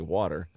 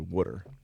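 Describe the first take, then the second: First: Water is said with a standard American pronunciation. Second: Water is said like 'wooder', Philadelphia-area style. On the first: "They don't say water" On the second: "they say water. W O O D E R"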